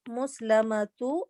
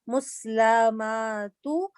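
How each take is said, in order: First: The middle vowels are kept short. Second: A middle vowel is stretched long. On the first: The speaker calls it right. "if we have" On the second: The speaker calls it wrong. "I'm reading muslama muslamatu ... This is wrong"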